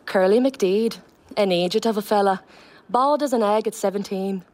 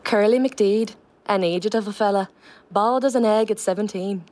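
First: Line read in a Donegal lilt; Donegal accent. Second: Line read again in a Donegal lilt; Donegal accent. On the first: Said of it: "I'll just do a line from the play". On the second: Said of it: "Just give us it again". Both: Shown as a demonstration.

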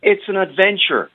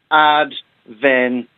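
First: It's an adventure, high-pitched and declaimed; pompous emphasis. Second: Adventure said slowly, each syllable spaced; slow syllable stress. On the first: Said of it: "forgive me if I sound a bit pompous". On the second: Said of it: "say three syllables now". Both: Shown as a demonstration.

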